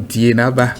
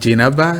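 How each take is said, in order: First: The name begins with a 'di' sound. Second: The name begins with a 'j' sound. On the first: The speaker calls it wrong. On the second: The speaker calls it right.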